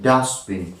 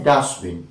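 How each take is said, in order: First: The t sound is dropped. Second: The t sound is dropped.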